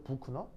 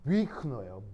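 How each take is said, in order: First: The first vowel is a plain rounded oo. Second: The first vowel is a fronted rounded ü. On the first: This is how it would be read without the dots. "유 발음은 독일어에서 그냥 우예요" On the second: This is how it is read with the dots. "우하고 웩을 섞는 거예요"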